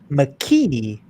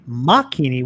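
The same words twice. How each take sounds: First: The stress falls on the 'ee' vowel. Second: The stress falls on the 'ah' vowel. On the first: "with the e being the emphasis" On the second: "with the ah being the emphasis"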